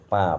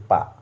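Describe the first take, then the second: First: "পা" said with a nasal vowel, as পাঁ; nasalised vowel. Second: Said in the usual way. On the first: Shown as a demonstration. Teacher demonstrating the mistaken chandrabindu form, "পা" nasalised. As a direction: send the vowel of "পা" through the nose. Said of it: "পয়ে চন্দ্রবিন্দু আকারে". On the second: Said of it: "এই চন্দ্রবিন্দু লাগবে না".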